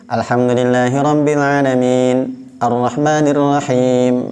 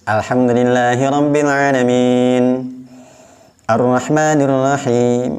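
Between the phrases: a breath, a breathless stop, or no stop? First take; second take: breathless stop; breath. First: It pauses briefly between phrases without taking breath. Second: It stops with an audible new breath between phrases. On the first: This is a brief halt, called saktah. "tidak ambil dulu nafas. Itu namanya saktah" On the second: This is a full stop, called waqf. "ada tarikan nafasnya"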